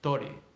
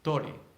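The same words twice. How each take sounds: First: It begins with t and has an o vowel. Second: It begins with t and has an o vowel.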